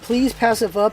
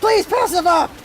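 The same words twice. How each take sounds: First: It is said calmly, at normal loudness. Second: It is yelled, loud and angry.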